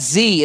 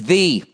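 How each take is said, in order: First: The word begins with a z sound. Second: The word begins with a th sound. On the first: The speaker calls it wrong. "It's not Z" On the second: The speaker calls it right. "it's the"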